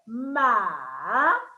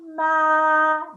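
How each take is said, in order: First: The syllable is said in the third tone. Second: The syllable is said in the first tone. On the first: "The third tone" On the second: "I do the first tone again"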